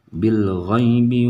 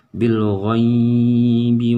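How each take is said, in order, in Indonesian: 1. Suku kata ghai dibaca pendek. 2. Suku kata ghai dipanjangkan. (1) "tetapi harus" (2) "nah itu salah"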